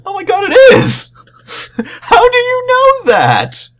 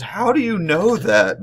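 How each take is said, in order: First: Much higher and louder, slow astonished shriek; shocked shout. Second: A higher, slower, baffled question; surprised question. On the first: Presenter finding page two twenty-seven, high loud shocked shriek. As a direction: shriek it in disbelief. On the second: Presenter asking the audience guy, higher baffled mock question. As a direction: ask it in mock disbelief. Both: Retold or imitated. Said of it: "he goes".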